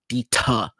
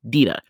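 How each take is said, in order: First: The middle consonant is a crisp, hard T. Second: The middle consonant sounds soft, like a D. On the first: The speaker calls it wrong. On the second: The speaker calls it right. "the T is a soft T. It's a D"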